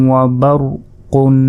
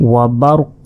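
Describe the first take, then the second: First: বারকুন with its final -un sounded and held; full nunated ending. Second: ওয়া বারুক ending on a released, echoing q; বারুক closed with a bounced q; stopping pronunciation. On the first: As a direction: chant বারকুন slowly through to a nasal n. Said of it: "এখানে আমরা যদি ওয়াকফ করি". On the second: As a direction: drop the -un and stop বারুক on q. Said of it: "যদি ওয়াকফ করি". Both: Shown as a demonstration.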